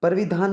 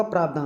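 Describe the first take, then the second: First: परिधान said wrongly as "parvidhaan"; wrong pronunciation. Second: प्रावधान opening on a long "praav"; correct pronunciation. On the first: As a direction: show the mistaken "parvi" for परिधान. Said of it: "परिधान नहीं होगा". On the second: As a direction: teach प्रावधान as "praav-dhaan". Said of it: "प्रावधान होता है भाई". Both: Shown as a demonstration.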